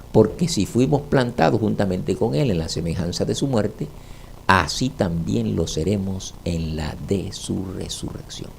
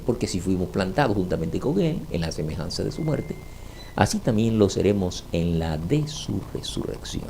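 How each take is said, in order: Both takes have the same delivery.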